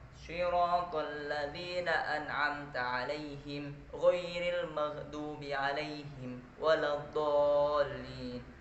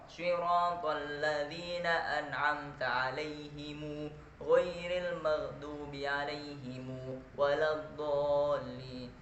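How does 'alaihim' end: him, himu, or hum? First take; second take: him; himu. First: The word 'alaihim' ends in him. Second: The word 'alaihim' ends in himu. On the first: This is the reading with a silent final m. "Jadi masih dibaca alaihim" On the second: This is the reading joining a vowel to the m. "lafaz alaihimnya menjadi alaihimu"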